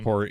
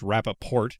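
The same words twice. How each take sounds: First: The final T sound is dropped. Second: The final T sound is clearly pronounced. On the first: "I thought that you were supposed to drop the T at the end" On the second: "he pronounces it with the T"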